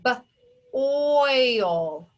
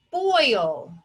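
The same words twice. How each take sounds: First: B-oil: b split off, then oil stretched; sounded out. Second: Said in the usual way. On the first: Shown as a demonstration. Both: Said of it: "This word is".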